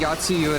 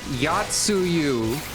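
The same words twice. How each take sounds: First: The name is said at normal speed. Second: The name is said slowly and carefully. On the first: "just saying Yatsuyu at normal speed" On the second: "if I say it slow enough, it understands"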